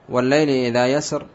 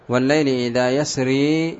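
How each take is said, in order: First: The last word ends without a long ee sound. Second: The last word ends with a long ee sound. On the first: "بحذف الياء" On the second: "بإثبات الياء"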